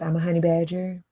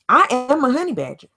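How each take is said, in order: First: It is said flatly, without emotion. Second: It is said with strong, believing emotion.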